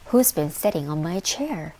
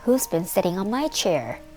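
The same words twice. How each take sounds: First: The voice sounds cross and annoyed. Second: The voice is high, small and squeaky. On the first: The speaker is annoyed. "Said Mother Bear in her cross voice" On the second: A small child is speaking. "Cried little baby bear in his squeaky little voice"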